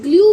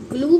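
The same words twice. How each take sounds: First: ग्लू as "glyoo", y glide before oo; variant pronunciation. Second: ग्लू as "gloo", plain oo with no y; variant pronunciation. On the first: Teacher giving children the other reading of glue, yoo sound. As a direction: slip a y in, "glyoo". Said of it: "ग्लू भी बोल देते हैं". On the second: Teacher giving children one accepted reading of glue, plain oo. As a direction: say "gloo" straight from l to oo. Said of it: "ग्लू भी बोलते हैं". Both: Shown as a demonstration.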